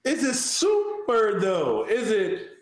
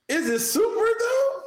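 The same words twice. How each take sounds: First: Emphatic call-out. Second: Teasing question. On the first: Repeating it emphatically. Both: Pretend.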